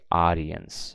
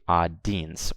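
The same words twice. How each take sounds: First: The i and e are pronounced as separate vowels. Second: The i and e vowels are not both pronounced. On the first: The speaker calls it right. "I say audience" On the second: The speaker calls it wrong. "I don't say audience"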